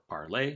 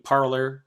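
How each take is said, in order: First: It is pronounced in a French-sounding way. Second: It is pronounced in an English-sounding way.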